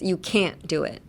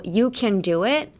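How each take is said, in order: First: CAN'T, a tiny held stop, then DO IT; small-tsu stop. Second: CAN flowing into DO IT without a break; no pause. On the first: Teacher showing the gap between words, tiny stop after can't. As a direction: put a semi-pause between can't and do. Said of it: "I hear a littleちっちゃいつ". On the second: Teacher contrasting for learners, can with no stop. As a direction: run can straight on into do. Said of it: "ちっちゃいつin between the words". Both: Shown as a demonstration.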